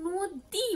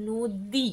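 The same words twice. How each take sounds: First: "নদী" with a heavily drawn-out ী; over-long, stressed last syllable in "নদী"; long final vowel. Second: "নদী" with a lower, less exaggerated ী; unforced final vowel in "নদী"; everyday Bengali pronunciation. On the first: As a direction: stretch the ee ending of "নদী" in exaggerated Sanskrit style. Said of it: "কিন্তু আমরা কখনো নদী বলি না". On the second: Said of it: "আমরা বলি নদী". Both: Shown as a demonstration.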